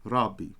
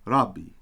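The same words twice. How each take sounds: First: The middle consonant is a doubled hard b. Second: The middle consonant is a doubled hard b.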